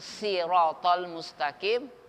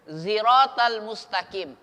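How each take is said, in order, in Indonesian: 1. Bunyi pertama adalah s yang berat dan emfatik. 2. Bunyi pertama adalah z yang bersuara. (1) "boleh dibaca shad" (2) "sin dibaca za"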